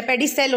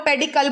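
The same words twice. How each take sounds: First: The right way: पेडिसेल, ending in "sel" and not "kal"; पेडिसेल as the teacher corrects it, "pedi-sel"; correct pronunciation. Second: पेडिकल said the wrong way, with a hard "kal" ending; the common mistake: say पेडिकल as "pedikal"; पेडिकल as a student wrongly says it, "pedi-kal"; wrong pronunciation. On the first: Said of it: "पेडिसेल होना चाहिए". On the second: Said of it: "जो कि गलत है". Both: Shown as a demonstration.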